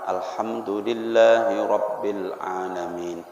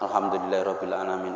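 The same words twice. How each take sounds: First: It is recited slowly, with doubled consonants held. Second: It is recited quickly, with doubled consonants skipped. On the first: The prayer is performed with full care. The speaker calls it right. "bacanya pelan-pelan" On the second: The prayer is rushed without care. The speaker calls it wrong. "Orang bacanya cepat"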